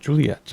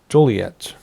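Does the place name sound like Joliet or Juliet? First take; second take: Juliet; Joliet. First: The name is said as Juliet. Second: The name is said as Joliet. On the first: The speaker calls it wrong. "not Juliet" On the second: The speaker calls it right. "So Joliet"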